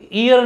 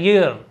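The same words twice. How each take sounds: First: It begins with a plain vowel, no y. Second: It begins with a clear y sound. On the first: The speaker calls it wrong. "ईयर नहीं बोलते हैं" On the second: The speaker calls it right. "इसको ईयर बोला जाता है"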